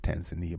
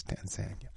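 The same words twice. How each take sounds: First: Tanzania said tan-zuh-NEE-uh; other people's pronunciation. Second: Tanzania said tan-ZAN-ya; local pronunciation. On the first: Radio host quoting how some people say it, Tanzania as tan-zuh-NEE-uh. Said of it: "Some people pronounce it". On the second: Radio host showing listeners the local way, Tanzania as tan-ZAN-ya. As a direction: say Tanzania in three syllables, stress on ZAN. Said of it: "That's how they pronounce it". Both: Shown as a demonstration.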